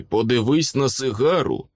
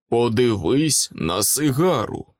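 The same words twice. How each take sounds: First: Said in the usual way. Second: Slow, deliberate "Подивись на сигару"; insistent repeat. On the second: A narrator's reading. Knight repeats "Подивись на сигару" to the puzzled wizard, insistent and slow. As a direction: spell out "Подивись на сигару" slowly, word by word.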